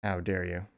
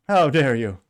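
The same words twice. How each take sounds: First: Said in the usual way. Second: Slow, loud mock indignation; mocking quote. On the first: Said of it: "Who is that political prop?". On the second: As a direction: drag it out loud and sneering. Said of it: "Greta Thunberg. Yeah, that weirdo".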